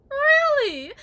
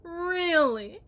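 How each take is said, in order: First: Much higher and louder, cracking shriek; shrieking mock disbelief. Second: Mock disbelief. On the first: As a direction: shriek it in hysterical mockery. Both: Wife mocking husband.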